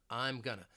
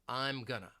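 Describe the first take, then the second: No difference in how they are said.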